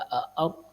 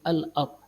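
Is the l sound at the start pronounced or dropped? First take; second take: dropped; pronounced. First: The l sound is dropped before the word. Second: The l sound is clearly pronounced before the word. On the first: The speaker calls it wrong. "Kita tidak baca a-ard" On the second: The speaker calls it right. "lam qamariyah ... tapi al-ard"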